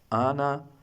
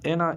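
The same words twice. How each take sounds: First: The name is said with a German pronunciation. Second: The name is said with an English pronunciation. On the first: "Anna in German" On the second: "Anna in English"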